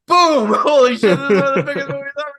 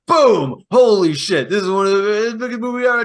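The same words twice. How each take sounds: First: High, loud burst of mock excitement; giddy mock amazement, higher and faster; over-the-top hype. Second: Loud mock excitement; mock excited shout; mock hype. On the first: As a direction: shout it like a box-office smash. Mock hype again, sequel. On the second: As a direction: hype up the first hit. First take of the hype.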